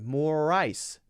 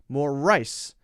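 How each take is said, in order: First: The emphasis falls on the vowel sound. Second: The emphasis falls on the R sound. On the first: It means frozen water for a drink. "notice that I'm stressing the I sound" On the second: It means the grain eaten as food. "Now I'm emphasizing the R sound"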